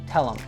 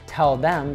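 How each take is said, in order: First: The th sound is dropped, leaving a short em. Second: The th sound at the start of them is pronounced. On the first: "becomes tell 'em" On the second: "we can drop the T H"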